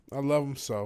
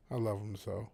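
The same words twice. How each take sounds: First: Said in the usual way. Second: Tender. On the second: Real, not acted. Fond words about his dog.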